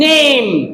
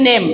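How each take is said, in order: First: The vowel is a long a sound. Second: The vowel is a short, plain e sound. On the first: The speaker calls it right. "It should be name" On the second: The speaker calls it wrong. "আমরা বলি name"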